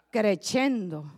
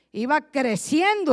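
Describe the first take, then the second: First: Said in the usual way. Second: The voice grows in strength; building up loud. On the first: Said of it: "tenores que empiezan suavecito". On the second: Shown as a demonstration. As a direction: swell into a louder voice like a tenor. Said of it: "trueno de voz".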